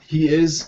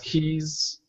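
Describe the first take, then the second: First: Both words are said in full. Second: The words are joined into one contracted syllable.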